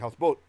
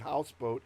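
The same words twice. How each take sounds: First: The stress falls on the last part, boat. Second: The stress falls on the first part, house. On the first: "only the last one gets the full accent sound" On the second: "it wouldn't be houseboat"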